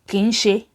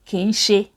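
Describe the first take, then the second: First: The phrase is run together as two words. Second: The phrase is run together as two words.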